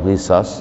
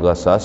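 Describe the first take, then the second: First: The first vowel is i. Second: The first vowel is a. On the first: "atau ghisas" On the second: "bukan ghasas"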